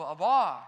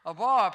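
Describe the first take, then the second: First: Abar said low and loud, stress on bar; Hebrew word abar. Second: Abar said firmly, stress on bar; Hebrew word abar. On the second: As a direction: repeat Abar as the Hebrew term. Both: Shown as a demonstration. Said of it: "it's the same word".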